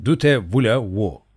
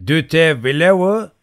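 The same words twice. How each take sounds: First: Explanatory "Dute vlevo", each word set out slowly; original French form. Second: "Dute vlevo" high, loud and drawn out, rising; mock-French "Dute vlevo" in a raised, stretched voice; snickering mangled French. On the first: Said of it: "Aslı". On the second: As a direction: ask "Dute vlevo" as clumsy French, slowly lifting the end. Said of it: "kıs kıs gülerek". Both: A narrator's reading.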